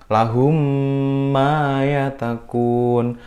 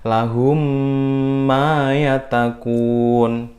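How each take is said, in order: No difference in how they are said.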